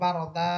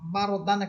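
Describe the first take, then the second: First: The word ends with a long a sound. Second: The word ends with an n sound. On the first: The word ends the verse at a stop. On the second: The word is not at a stop.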